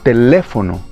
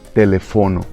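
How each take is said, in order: First: The stress is on the second syllable. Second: The stress is on the third syllable. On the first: The speaker calls it right. "em espanhol ficaria teléfono" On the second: The speaker calls it wrong. "E não telefono"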